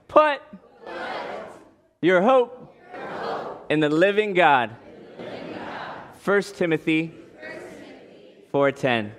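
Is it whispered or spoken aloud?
aloud. It is spoken aloud in a normal voice.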